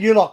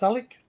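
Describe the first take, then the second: First: "you lot" said as two words, YOU-lot; mispronounced name. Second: "Alec" said AL-ick; correct name pronunciation. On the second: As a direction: say "Alec" with a short A first. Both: Shown as a demonstration. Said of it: "It's pronounced Alec".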